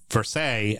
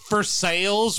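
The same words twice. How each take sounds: First: The word ends with a French-style 'sigh' sound. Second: The word ends with a hard-s 'sales' sound. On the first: This is the French pronunciation. The speaker calls it wrong. "We would say Versailles" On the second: This is the local Kentucky pronunciation. The speaker calls it right. "it's Versailles, we're rednecks down here, that's how we pronounce it"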